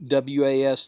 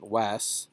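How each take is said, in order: First: Said in the usual way. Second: "Was" with an open a and hissed s; Middle English was. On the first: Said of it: "you're so used to saying was". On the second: Shown as a demonstration. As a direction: say "Was" as "wahss", not "wuz". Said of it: "but it's a little different".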